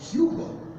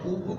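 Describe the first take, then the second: First: The initial H is pronounced strongly. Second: The initial H is silent. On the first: This is how English speakers say the name. "la H se pronuncia fuerte" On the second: This is how the name is said in Spanish. "en español es muda"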